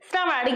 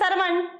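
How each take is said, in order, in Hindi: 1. यह शब्द shr के संयुक्त वर्ण से शुरू होता है। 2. यह शब्द s और एक स्वर से शुरू होता है। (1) "ये हमारा श्रवण सही है" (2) "हम लोग कहते हैं सरवण"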